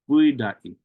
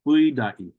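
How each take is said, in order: No difference in how they are said.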